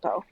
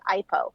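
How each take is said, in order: First: It is said with the native Hawaiian pronunciation. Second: It is said the way mainland speakers say it. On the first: The speaker calls it right. "it's Ipo" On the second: The speaker calls it wrong. "A lot of people here on the mainland mispronounce it Ipo"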